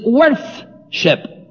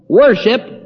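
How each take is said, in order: First: The middle has a 'th' sound. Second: The middle has no 'th' sound. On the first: "Worship is worth-ship" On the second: "the lazy pronunciation of our ancestors who couldn't put TH in the middle of a word"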